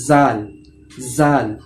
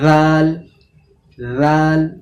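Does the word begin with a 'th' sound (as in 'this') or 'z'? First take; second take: z; th. First: It begins with a buzzing 'z' sound. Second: It begins with a soft 'th' sound. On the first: The speaker calls it wrong. "তাহলে এটা হচ্ছে ভুল উচ্চারণ" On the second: The speaker calls it right. "রাল বলার সময়ও জিভটা বাইরে এসে সেখানে ওই 2 দাঁতে টাচ হবে"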